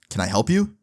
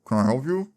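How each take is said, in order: First: It is said in a clear voice. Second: It is said muffled, as if chewing.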